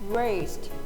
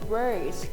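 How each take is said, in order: First: The final consonant cluster is said in full. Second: The final consonant cluster is reduced to one sound. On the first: "mainstream American will pronounce" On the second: "Chicano English will pronounce"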